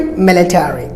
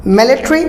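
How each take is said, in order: First: Military as MIL-i-TAIR-ee; full "tary" in military; American military, falling; American pronunciation. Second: Military as MIL-i-tree, higher and rising; short ending on military; British military, reduced "tary"; British pronunciation. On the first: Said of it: "and Americans military". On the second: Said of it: "British military". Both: Shown as a demonstration.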